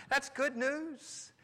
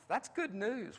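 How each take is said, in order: First: Slow and beaming, drawn out; smiling good news. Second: Said in the usual way. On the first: Shown as a demonstration. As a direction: let the smile show on "That's good news". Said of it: "if your heart is happy, tell your face". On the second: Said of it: "tell your face".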